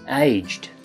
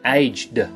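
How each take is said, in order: First: The word ends with a soft T sound. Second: The word ends without a soft T sound. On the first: The speaker calls it right. "that has a soft T sound at the end" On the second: The speaker calls it wrong. "It isn't"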